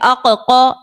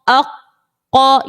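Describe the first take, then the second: First: The doubled k is released with an audible bounce. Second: The doubled k is held firmly without a bounce. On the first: The speaker calls it wrong. "इस तरह नहीं पढ़ना है" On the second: The speaker calls it right. "ये जमाओ पैदा किया हमने हमने जाहिर नहीं किया।"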